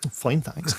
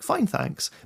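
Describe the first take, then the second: First: It is said in an angry, sarcastic tone. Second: It is said in a cheerful, joyful tone.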